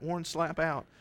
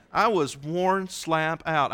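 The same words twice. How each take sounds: First: Said in the usual way. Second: "worn slap out" stretched slowly, word by word; drawn-out emphasis. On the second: Shown as a demonstration. Repeats the phrase for emphasis.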